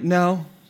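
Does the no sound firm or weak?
weak. It is said weakly, without conviction.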